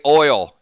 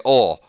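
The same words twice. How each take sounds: First: Oil said as "OY-ul"; standard oil pronunciation. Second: Oil said as "awl"; Southern oil pronunciation. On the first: Host shows what Southerners don't say, oil as "OY-ul". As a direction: give oil its full "oy" glide. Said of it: "we don't say oil in the South". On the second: Host shows how the South says it, oil as "awl". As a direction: flatten oil to "awl", without the "oy" glide. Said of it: "We say oil". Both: Shown as a demonstration.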